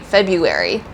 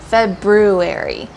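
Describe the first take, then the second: First: It is said without the R after B. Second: It is said with the R after B. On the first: The speaker calls it wrong. "lots of native English speakers say February" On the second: The speaker calls it right. "there's actually an R before the U. So it's pronounced February"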